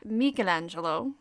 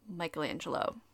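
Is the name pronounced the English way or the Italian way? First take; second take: Italian; English. First: The name is pronounced the Italian way. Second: The name is pronounced the English way. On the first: This is the authentic pronunciation. "Michelangelo's name is actually pronounced" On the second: This is the familiar, unpretentious pronunciation. "the tried and true pronunciation of"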